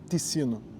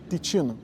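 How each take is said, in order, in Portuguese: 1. O 'ci' do meio é lido como está escrito. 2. O 'ci' do meio é pronunciado com som de t. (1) "não se lê Ticino" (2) "se fala Ticino, porque em italiano aquele C I tem som de T"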